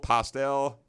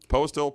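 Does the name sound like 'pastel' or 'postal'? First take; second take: pastel; postal. First: The name sounds like the word 'pastel'. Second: The name sounds like the word 'postal'. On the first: The speaker calls it wrong. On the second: The speaker calls it right.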